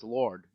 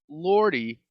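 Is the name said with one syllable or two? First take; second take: one; two. First: The name is said with one syllable. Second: The name is said with two syllables. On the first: The speaker calls it right. "it's Lord" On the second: The speaker calls it wrong. "You're pronouncing it wrong"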